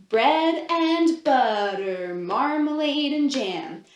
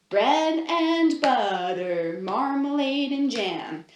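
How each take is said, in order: No difference in how they are said.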